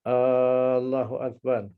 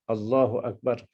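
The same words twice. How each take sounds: First: The first vowel A is drawn out long. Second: No vowel is drawn out beyond normal length. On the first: "kita tak boleh panjangkan A" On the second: "katakan lafaz takbiratul ihram"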